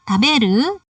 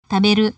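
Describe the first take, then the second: First: The pitch rises at the end. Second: The pitch stays level at the end. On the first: It asks the listener a question. "Jadi memiliki intonasi naik di akhir" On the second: It answers the question. "intonasi tidak naik"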